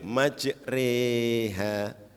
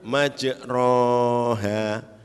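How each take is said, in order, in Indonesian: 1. Vokal setelah r berada di tengah, seperti e. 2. Vokal setelah r adalah a terbuka biasa. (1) "Kalau pertengahan" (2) "kalau baca alif"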